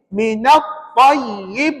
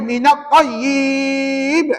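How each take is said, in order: First: The vowel in tayyib is kept short. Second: The vowel in tayyib is drawn out long. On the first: The speaker calls it right. "Jawabnya pendek. Dia kena baca gini" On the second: The speaker calls it wrong. "Tak boleh minat tayyib"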